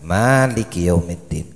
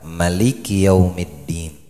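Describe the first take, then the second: First: The first vowel of Maliki is held long. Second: The first vowel of Maliki is kept short. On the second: "dipendekkan satu harakat"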